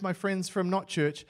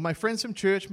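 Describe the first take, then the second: First: Slow, the word "not" lifted and held; stress on not. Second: Said in the usual way. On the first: Shown as a demonstration. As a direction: lean hard on "not" before "church".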